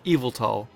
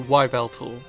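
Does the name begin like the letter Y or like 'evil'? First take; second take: evil; letter Y. First: The name begins with the sound of 'evil'. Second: The name begins with the sound of letter Y. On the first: The name refers to evil. "the first part was to be pronounced as evil" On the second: The name highlights the letter Y. "it puts quite a lot of emphasis on the letter Y"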